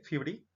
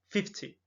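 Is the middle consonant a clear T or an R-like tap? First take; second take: R-like tap; clear T. First: The middle consonant sounds like a tapped R. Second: The middle consonant is a clear T. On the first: "Podría ser como una R" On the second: "la T sí suena"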